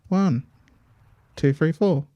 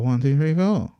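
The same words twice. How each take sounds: First: There is a pause after one. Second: There is no pause after one.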